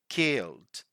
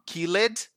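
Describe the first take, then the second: First: The word has one syllable, with no extra vowel before the D. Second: The word has two syllables, with an extra vowel before the D. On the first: The speaker calls it right. "it's killed" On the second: The speaker calls it wrong. "So it's not killed"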